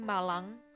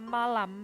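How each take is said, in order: First: The word ends in an ng sound. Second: The word ends in an m sound.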